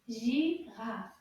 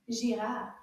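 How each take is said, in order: First: Said in the usual way. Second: Girafe said quickly; a quicker Girafe for the class; faster. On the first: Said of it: "a little bit faster". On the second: Shown as a demonstration. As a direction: rush through Girafe. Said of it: "Now let's say it a little bit faster".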